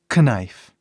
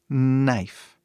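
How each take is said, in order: First: The word begins with a K sound. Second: The word begins with an N sound. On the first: The speaker calls it wrong. "Não falamos knife" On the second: The speaker calls it right. "a pronúncia começa com N"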